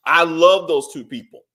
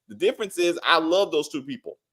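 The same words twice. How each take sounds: First: Louder restated line, love stressed; emphatic repeat. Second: Said in the usual way. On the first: Shown as a demonstration. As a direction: hammer "love" in "I love those two people" louder.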